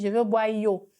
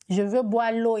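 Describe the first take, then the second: First: The last word starts with a Y sound. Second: The last word starts with an L sound. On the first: The speaker calls it wrong. "il dit yo" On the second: The speaker calls it right. "le son lo"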